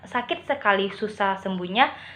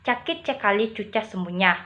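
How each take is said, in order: First: The words begin with a plain s sound. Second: The s sounds are replaced with ch sounds.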